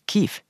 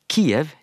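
First: The name has the Ukrainian pronunciation. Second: The name has the Russian pronunciation. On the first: It is the form used in the country itself. "den ukrainske uttalen er Kiev" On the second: It is the form familiar from the Soviet era. "det er den russiske uttalen av byen Kiev"

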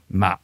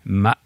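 First: The word is said on a heavy dropping tone. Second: The word is said on a broken rising tone. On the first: The word means rice seedling. "som betyr en liten risplante" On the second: The word means code or horse. "Det betyr hest. Nei, unnskyld, kode"

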